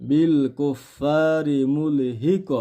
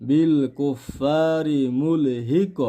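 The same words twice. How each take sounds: Both takes have the same delivery.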